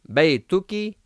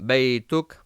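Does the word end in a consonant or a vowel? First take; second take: vowel; consonant. First: The word ends with a short final vowel. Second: The word ends on a bare consonant.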